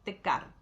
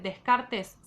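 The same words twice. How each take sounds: First: The name is said in the French style. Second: The name is read out as it is spelled. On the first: "se pronuncia Descartes" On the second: "se escribe Descartes"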